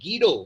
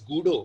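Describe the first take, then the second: First: The first vowel sounds like 'ee'. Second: The first vowel sounds like 'oo'. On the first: The speaker calls it right. "His name is गीडो van रॉसम" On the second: The speaker calls it wrong. "His name is not pronounced as गूडो"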